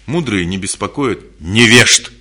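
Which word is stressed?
невежд. The stress falls on "невежд". The focus is on the ignorant. "куда акцент делается? На слово невежество"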